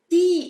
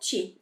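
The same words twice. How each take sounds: First: The t is a plain, hard t sound. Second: The t sounds like a ch sound. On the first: The speaker calls it right. "é ti" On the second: The speaker calls it wrong. "e não ti"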